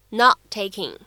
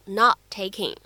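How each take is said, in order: No difference in how they are said.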